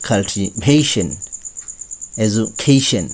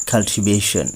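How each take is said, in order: First: কাল্টিভেশন said slowly, ending in এইশন; slow careful এইশন ending; correct pronunciation. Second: কাল্টিভেশন with a flat এশন ending; the usual slip, short এশন; common wrong pronunciation. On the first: Teacher giving the right version, slowly, ending in এইশন. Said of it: "আসল উচ্চারণ". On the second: Teacher showing students the usual error, a flat ending. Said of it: "আমরা সাধারণত বলে থাকি". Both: Shown as a demonstration.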